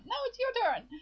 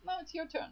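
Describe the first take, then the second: First: Much higher mock sibling retort; higher bickering reply. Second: Mock sibling squabble, pitched up; bickering siblings. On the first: Sister and Lucas over grandma's teeth, higher bickering retort. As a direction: squabble back in a high-pitched voice. The other sibling answers back. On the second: Lucas and his sister over grandma's teeth, bickering. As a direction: toss the chore back, childishly.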